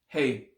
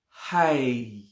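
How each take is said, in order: First: The vowel falls between 'ay' and 'eye'. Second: The vowel sounds like a clear 'eye'. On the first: The speaker calls it right. "It's just in between" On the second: The speaker calls it wrong. "and it's not hi"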